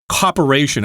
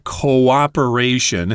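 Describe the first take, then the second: First: The word is squeezed into four syllables. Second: The word is said with all five syllables. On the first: The speaker calls it wrong. "that sort of sounds like corporation" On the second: The speaker calls it right. "It's got an extra syllable there"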